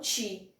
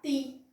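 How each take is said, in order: First: The t is softened toward a ch sound. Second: The t is a hard, plain t sound. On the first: The speaker calls it wrong. "não ti" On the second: The speaker calls it right. "você vai pronunciar ti"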